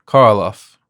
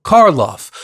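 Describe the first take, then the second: First: Put-on muttered Slavic accent. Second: Loud, high excited name; excited shout. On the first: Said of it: "the businessman muttered". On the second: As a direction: call the name out as it comes back. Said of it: "and then shouted". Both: A narrator's reading.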